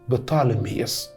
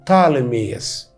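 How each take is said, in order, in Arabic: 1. الاسم يبدأ بصوت P. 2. الاسم يبدأ بصوت T. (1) "اسمه اليوناني بطالميوس" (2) "فما ننطقش البي الاولانيه"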